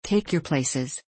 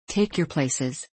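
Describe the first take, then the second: First: Said in the usual way. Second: Drawn-out porter's call, unhurried; slow, deliberate call to board; slow repeated call. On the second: Acted. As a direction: stretch the words out like a tired porter. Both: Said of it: "cried the unseen porter".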